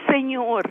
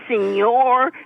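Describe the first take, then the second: First: It is said plainly, without any exaggeration. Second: It is said with an exaggerated, comic-style accent. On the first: It is said respectfully. The speaker calls it right. "the proper way" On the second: It mocks the word like a TV comic. The speaker calls it wrong. "wouldn't say Senor. I would, you know, like the comics on TV"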